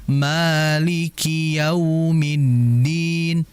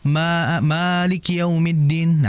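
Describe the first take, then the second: First: The phrase is recited slowly with clear letters. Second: The phrase is recited hurriedly and indistinctly. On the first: The speaker calls it right. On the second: The speaker calls it wrong. "ini terlalu terburu-buru"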